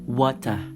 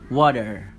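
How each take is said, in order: First: British accent: weak r, clear t. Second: American accent: clear r, weak t. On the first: "di bahasa Inggris British ini pengucapannya itu huruf R dibaca dengan lemah dan huruf T dibaca dengan jelas" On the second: "Di bahasa Inggris Amerika, huruf R-nya itu dibaca dengan jelas. Dan huruf T dibaca dengan lemah"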